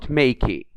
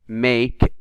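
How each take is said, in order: First: The final E is pronounced aloud. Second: The final E is not pronounced. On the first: The speaker calls it wrong. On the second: The speaker calls it right.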